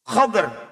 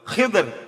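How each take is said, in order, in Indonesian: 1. Ada a setelah kh, tidak ada vokal setelah d. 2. Ada i setelah kh, tidak ada vokal setelah d. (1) "atau dibaca fathah kha-nya" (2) "kha-nya kasroh, dhadnya sukun"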